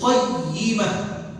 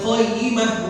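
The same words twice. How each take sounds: First: The doubled y is pressed and held long. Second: The doubled y is said short without pressure. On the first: The speaker calls it right. "syiddah itu menekan harus dekat jadi qayyimah" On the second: The speaker calls it wrong. "bukan qayyimah"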